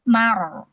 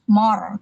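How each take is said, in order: First: The m and its vowel sound thin and light. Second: The m and its vowel sound thick and heavy. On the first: The speaker calls it right. "Mimnya tipis" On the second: The speaker calls it wrong. "bukan more"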